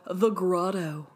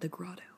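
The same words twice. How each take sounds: First: The name is said in a plain, neutral voice. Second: The name is said in a sultry, seductive voice. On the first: The place sounds unappealing. "Which doesn't sound sexy when you say it" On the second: The place sounds sexy. "unless you say it like that"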